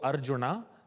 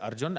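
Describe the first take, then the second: First: The name ends with a final vowel sound. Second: The name ends on the consonant n. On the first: This is how South Indians say it. "In South India, however, we would go Arjuna" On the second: This is how North Indians say it. "So for someone from North India, they would say Arjun"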